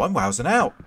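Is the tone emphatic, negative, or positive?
positive. It is said in a positive, upbeat tone. Something good is happening. "could be a good thing"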